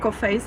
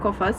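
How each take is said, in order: First: It is said the English way, ending in 'face'. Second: It is said the French way, ending in 'fas'. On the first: The speaker calls it wrong. "I would say in English" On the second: The speaker calls it right. "actually French and it's pronounced like Kofas"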